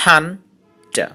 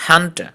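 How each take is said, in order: First: Hunter split into two syllables with a pause. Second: Said in the usual way. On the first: Shown as a demonstration. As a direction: say hunter in two separate beats. (hunter দুই সিলেবলে ভেঙে থেমে থেমে) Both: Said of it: "disyllabic words".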